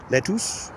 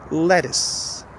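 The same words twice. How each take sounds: First: LETTUCE as let-TOOS, higher and questioning; spelling pronunciation. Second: LETTUCE as LET-iss, second vowel reduced; correct schwa pronunciation. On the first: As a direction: read lettuce by its letters, full U, as a doubtful question. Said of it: "not going to read the letters". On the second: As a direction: stress the first syllable of lettuce, weaken the second. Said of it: "it's lettuce". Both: Shown as a demonstration.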